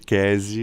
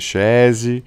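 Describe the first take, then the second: First: The name has a 'k' and a plain 's'. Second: The name begins with a 'sh' sound. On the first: This is the reading most people adopted. "o pessoal começou a me chamar majoritariamente de Kesi" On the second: This is the Portuguese reading of the name. "em português pode ser Chese"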